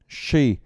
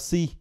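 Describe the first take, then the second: First: It begins with a heavy sh sound. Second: It begins with a light s sound. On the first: The speaker calls it right. "cái xì nặng nặng á thì nó phải là cái âm ét hát này kia, nó là she" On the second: The speaker calls it wrong. "mình lại thấy các bạn đọc là she"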